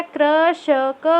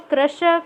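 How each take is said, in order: First: कृषक drawn out slowly, each syllable apart. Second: Said in the usual way. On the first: Shown as a demonstration. Teacher sounds out कृषक slowly for pupils. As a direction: stretch कृषक slowly to spell it out. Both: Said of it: "कृषक हो गया है".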